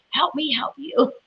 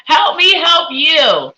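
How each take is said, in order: First: Laughing. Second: Big, slow, drawn-out comic wail; hammed-up pleading cry; mock plea. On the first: Real, not acted. Pleading with confusing viewer comment. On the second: Psychic begs a viewer for a clearer question, mock wailing.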